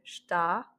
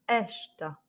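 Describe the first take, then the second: First: The stress is on the last syllable. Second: The stress is on the first syllable. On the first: "il y avait un accent en fait sur le A" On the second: "on va intensifier le E"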